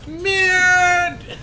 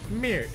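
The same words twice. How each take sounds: First: It is said forcefully, with strong feeling. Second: It is said plainly, without force.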